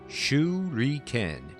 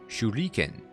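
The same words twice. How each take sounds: First: The word is said with an English pronunciation. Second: The word is said with a Japanese pronunciation. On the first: "if I pronounce it" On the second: "I guess would be the Japanese way to say that"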